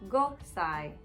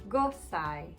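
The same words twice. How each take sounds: No difference in how they are said.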